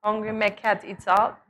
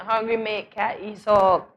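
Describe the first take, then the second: First: Said in the usual way. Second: A slow, light Bajan lilt on the proverb; Bajan accent. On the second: Shown as a demonstration. Translating granny's proverb, in a slow, lightly done Bajan accent. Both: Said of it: "we have to say it in a Bajan accent".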